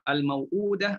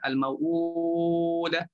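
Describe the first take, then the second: First: The long vowel is held for two counts. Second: The long vowel is held for four counts.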